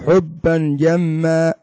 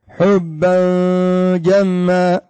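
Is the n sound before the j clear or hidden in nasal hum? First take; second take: clear; hidden. First: The n sound is pronounced clearly and distinctly. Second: The n sound is hidden in a nasal hum. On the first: "لو كان إظهارا ستقول حبا جما" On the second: "لكن هنا إخفاء"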